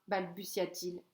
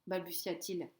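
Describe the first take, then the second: The two takes are said the same way.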